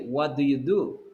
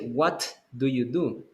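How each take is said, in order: First: The final T of what is not released. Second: The final T of what is clearly released. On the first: The speaker calls it right. "You don't have the explosion in the T" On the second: The speaker calls it wrong. "you're not going to say"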